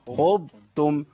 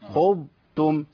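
No difference in how they are said.

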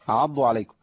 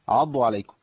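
The two takes are said the same way.

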